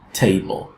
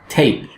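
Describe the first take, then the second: First: A short weak vowel comes before the final L. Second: The final L follows directly with no vowel. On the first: "the l sound is preceded by a schwa sound" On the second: "the schwa kind of disappears before the syllabic l sound"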